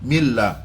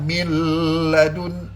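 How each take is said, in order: First: The joined sound is short and quick. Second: The joined sound is nasal and drawn out. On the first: The speaker calls it right. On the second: The speaker calls it wrong. "seolah-olah macam nak dengung macam panjang"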